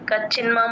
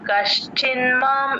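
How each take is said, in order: First: The 'sh' sound before 'ch' is dropped. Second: A clear 'sh' sound is heard before 'ch'. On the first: The speaker calls it wrong. "అలా అనకూడదు" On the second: The speaker calls it right. "కష్ ఆ షా వినిపించాలి"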